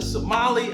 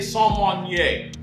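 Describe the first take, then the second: First: The word is said in a plain English accent. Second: The word is said in a French accent. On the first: "I think that might be wrong" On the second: "I had to throw my French accent on real fast"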